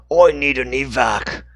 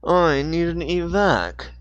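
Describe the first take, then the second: First: Slow, louder wrong character voice; the wrong voice for Dixon. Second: Slow, higher clipped radio call; the corrected Dixon voice; Dixon's voice. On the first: Dixon calls for evac, but in the wrong voice. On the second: Dixon calls for evac on the walkie-talkie in his voice. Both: Acted. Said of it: "wrong voice again".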